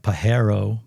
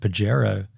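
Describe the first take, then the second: First: The name is pronounced the Spanish way. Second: The name is pronounced in an anglicized way. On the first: This is the correct pronunciation. "I know he's saying it correctly like Pajero" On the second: This is how the speakers have always said it. "but we've always said Pajero"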